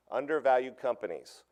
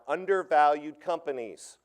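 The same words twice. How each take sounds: First: Said in the usual way. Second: Undervalued companies said slowly and a bit louder, each word weighted; stressed, slow. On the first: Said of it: "That's the key". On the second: Shown as a demonstration. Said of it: "here are the words, here they are".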